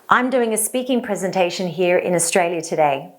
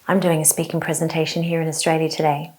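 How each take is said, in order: First: The voice is strong and full of power. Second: The voice is small, quiet and mousy. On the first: The speaker calls it right. "In the second example, I was using vocal power" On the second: The speaker calls it wrong. "One was in a mousy voice"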